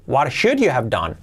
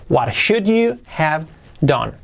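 First: Said in the usual way. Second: "What should you have done?" slowed and spaced out; slow word-by-word model. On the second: Shown as a demonstration. Teacher repeats the question for learners, slowly, word by word. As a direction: separate the words for learners.

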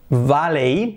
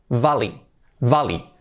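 First: "Valley" said BA-lay; wrong ending. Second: "valley" said VA-lee; correct English ending. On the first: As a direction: end "Valley" on a Spanish EY glide. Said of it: "no se dice valley". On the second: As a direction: end "valley" on EE. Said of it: "se dice valley". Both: Shown as a demonstration.

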